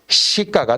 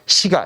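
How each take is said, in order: First: The second syllable starts with a tensed consonant. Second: The second syllable starts with a plain consonant. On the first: The speaker calls it right. "발음상으로는 ... 되어야 돼요" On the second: The speaker calls it wrong. "이렇게 하지는 않는다는 거지"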